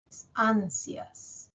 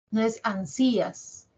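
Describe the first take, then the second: First: Ansias with force on the first a, slow; right stress. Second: Ansías stressed on the í, wrong. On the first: Teacher giving the correct pronunciation, slowly. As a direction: stretch ansias, the a strong and the i short. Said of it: "As suena más". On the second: Teacher showing the wrong stress to students, exaggerated. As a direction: say ansías with the force on the i. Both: Shown as a demonstration.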